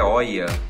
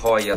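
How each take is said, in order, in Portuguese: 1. A palavra começa direto com uma vogal. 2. A palavra começa com um h aspirado. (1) "A pronúncia certa é Oia" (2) "Vou falar Hoya"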